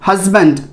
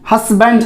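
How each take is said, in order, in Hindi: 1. बीच का व्यंजन एक भनभनाती z ध्वनि है। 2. बीच का व्यंजन एक फुफकार वाली s ध्वनि है। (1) "ज का उच्चारण होगा" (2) "हस्बैंड नहीं, स नहीं"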